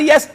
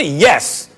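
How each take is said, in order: First: Mock reluctant squeak, pitched up; squeaked-out yes. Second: Firm, low, decisive yes; said with your chest. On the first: Commentator mimics coach's grudging answer, squeaked out. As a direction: imitate a coach barely squeezing the word out. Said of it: "finally he squeaks out". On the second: Shown as a demonstration. Showing a coach how to answer, firmly from the chest. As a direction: answer from the chest, pitched down, no doubt. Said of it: "Say it with your chest".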